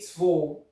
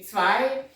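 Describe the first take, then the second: First: It is said in a regional dialect form. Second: It is said in standard German form. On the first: "in dialect, they say tvo" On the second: "it's supposed to be zwei"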